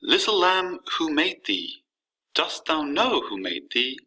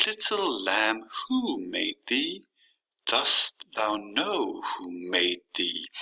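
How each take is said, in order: First: Measured recital with lifted stresses on "lamb" and "know"; lilting, rhythmic poetry reading; exaggerated poem rhythm. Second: Very slow scansion, stressing "Little", "lamb", "who", "thee"; "Little lamb" beaten out slowly, stressed then unstressed; trochaic stress demo. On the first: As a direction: read verse with a lightly exaggerated beat. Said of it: "exaggerate just a little bit about how the rhythm". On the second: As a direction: stretch the stressed syllables in "Dost thou know". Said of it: "there has to be a stress on every other syllable".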